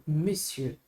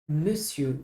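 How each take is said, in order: No difference in how they are said.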